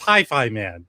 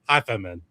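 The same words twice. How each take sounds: First: It is said like the English words hi-fi man. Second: It is said like a foreign family surname. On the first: The speaker calls it right. "It's Hi-Fi Man" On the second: The speaker calls it wrong. "like it's uh, an ethnic name from the old country"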